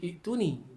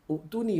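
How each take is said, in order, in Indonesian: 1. Dimulai dengan i diikuti hentian. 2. Dimulai dengan u diikuti hentian. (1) "Ada orang baca Iktuni" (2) "banyak ada orang baca Uktuni"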